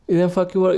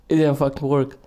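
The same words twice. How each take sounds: First: Higher, emphatic repeat in disbelief; exasperated disbelief. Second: Said in the usual way. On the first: Real, not acted. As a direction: say it again, unable to believe it.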